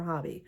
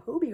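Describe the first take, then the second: First: Hobby with a short O; unsure short-O reading of Hobby; alternative pronunciation. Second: Hobie with a long O; unsure long-O reading of Hobie; alternative pronunciation. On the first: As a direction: say Hobby as HAH-bee. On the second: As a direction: say Hobie as HOH-bee. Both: Shown as a demonstration. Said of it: "am I even pronouncing it right?".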